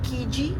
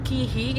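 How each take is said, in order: First: The middle consonant is a J sound. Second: The middle consonant is an H sound.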